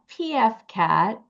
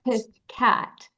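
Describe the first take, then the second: First: The first part is spelled out as letters. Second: The first part is said as one word, 'piff'. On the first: The speaker calls it wrong. "Not P F Cat" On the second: The speaker calls it right. "but Piff Cat"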